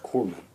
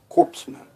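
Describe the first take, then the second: First: The first part is said like core. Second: The first part is said like corpse. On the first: It refers to military medics. The speaker calls it right. "Most people understand the word is corpsman" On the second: It sounds like it refers to dead men. The speaker calls it wrong. "reads like corpseman"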